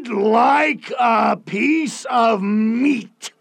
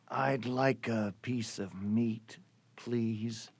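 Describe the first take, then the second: First: It is said in a loud booming voice. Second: It is said in a soft quiet voice.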